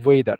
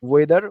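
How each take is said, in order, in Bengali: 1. w-এর আগে একটা হালকা 'h' ধ্বনি শোনা যায়। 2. এটা 'weather'-এর মতো শোনায়, কোনো 'h' নেই। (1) "এমন ভাবে উচ্চারণ করে যে এইচ হালকা থাকে" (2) "ওইভাবে অনেকে উচ্চারণ করে"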